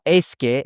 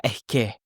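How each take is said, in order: First: "es que" said slowly as two clear words; careful es que. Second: "es que" run together fast as one word, eske; smushed es que. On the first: Teacher showing the textbook version to contrast. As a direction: pronounce "es que" word by word. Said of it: "it's not". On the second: Teacher showing how natives squash the phrase. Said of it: "so fast and smushed together". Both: Shown as a demonstration.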